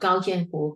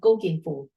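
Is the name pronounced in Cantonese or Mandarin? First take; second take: Mandarin; Cantonese. First: The name is pronounced the Mandarin way. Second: The name is pronounced the Cantonese way. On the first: This is the official national language form. "I'm using the Mandarin pronunciation for their names" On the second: This is how they called themselves natively. "the language that they use are Cantonese"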